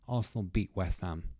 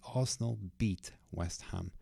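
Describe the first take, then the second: First: The t at the end of beat is silent. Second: The t at the end of beat is clearly pronounced. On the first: "if I say it more naturally" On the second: "If I say it stressed"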